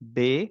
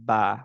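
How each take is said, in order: First: The vowel after b is a closer e. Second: The vowel after b is an open a. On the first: The speaker calls it wrong. "এগুলো বলব না।" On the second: The speaker calls it right. "আমরা বলব হচ্ছে বা।"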